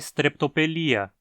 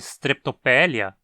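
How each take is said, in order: First: The stress falls on the syllable 'li'. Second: The stress falls on the syllable 'pe'. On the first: The speaker calls it right. "a pronúncia adequada é streptopelia, pois esse i na penúltima sílaba é longo" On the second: The speaker calls it wrong. "termos o instinto de querer dizer streptopélia"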